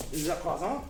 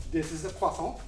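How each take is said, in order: First: Playful French pronunciation; hammed-up French accent; mock French accent. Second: Said in the usual way. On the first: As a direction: say it like a pretend Frenchman. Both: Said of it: "I became French".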